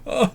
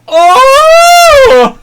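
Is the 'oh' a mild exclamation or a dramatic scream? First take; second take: mild exclamation; dramatic scream. First: It is a mild, ordinary exclamation. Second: It is a loud, dramatic scream.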